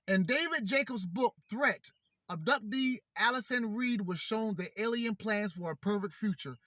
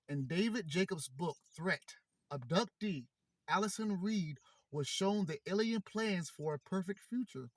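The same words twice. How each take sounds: First: It is read fast and excitedly. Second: It is read slowly and calmly.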